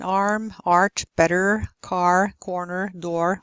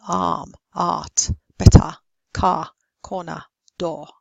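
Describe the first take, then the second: First: "arm, art, better, car, corner, door" with every R sounded; rhotic R. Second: "Arm, art, better, car, corner, door" with no R; non-rhotic, silent R. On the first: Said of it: "is always pronounced". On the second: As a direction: drop the R: "ahm, aht, bettah" for "Arm, art, better". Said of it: "the R would be silent". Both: Shown as a demonstration.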